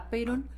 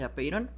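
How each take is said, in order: First: The stress is on the first syllable. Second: The stress is on the last syllable. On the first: "Hay quien le pone el acento en la A de" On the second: "hay quien se lo pone al final de"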